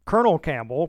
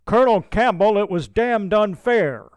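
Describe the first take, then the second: First: Said in the usual way. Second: Much louder, higher protest; calling out. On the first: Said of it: "narration of the name". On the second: A narrator's reading. DePaster calls out to Campbell from horseback, loud and indignant. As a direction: call out over the noise in outrage. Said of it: "calls out twice".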